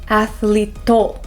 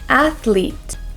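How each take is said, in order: First: An extra vowel sound follows the final T. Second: The word ends cleanly on the T sound. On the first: The speaker calls it wrong. "we don't want to say to" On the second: The speaker calls it right. "We want to say athlete"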